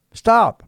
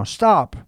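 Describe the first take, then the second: First: "Stop," barked louder and higher still. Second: Loud, high stop falling off; a firm command: "stop.". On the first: Preacher repeating his command to the listener, even louder. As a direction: hit "Stop," harder, like a final order. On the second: Preacher ordering the distracted listener to halt, loud and firm. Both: Acted.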